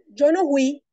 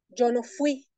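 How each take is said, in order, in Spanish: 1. La palabra 'fui' empieza con un sonido h aspirado. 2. La palabra 'fui' empieza con un sonido f claro. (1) "sustitución de la F por la J" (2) "para decir yo no fui"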